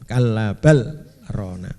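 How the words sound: A short break separates 'bal' from 'rona'. The speaker calls it right. "harus dibaca saktah ya"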